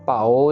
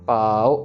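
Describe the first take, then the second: First: The final o sound is drawn out. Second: The a sound is drawn out long. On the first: The speaker calls it wrong. "पाओ नहीं कहना" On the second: The speaker calls it right. "पा को लंबा खींचना है और ऊड़े अंकड़ ओ छोटा रखना है"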